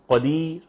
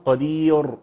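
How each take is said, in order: First: The r sound is left out entirely. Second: The r is thick and heavy, with full mouth. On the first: "قدير كده حذفها" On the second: "او ياتي بها مفخمه قدير"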